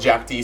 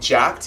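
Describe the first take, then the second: First: The name is said as 'jack' plus the letter D. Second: The name is said as one syllable, 'jackt'. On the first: This is how it is said in Asia. "Here in Asia, they call it Jack D" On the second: This is how it is said in the West. "In the U S or in the West, we call it Jacked"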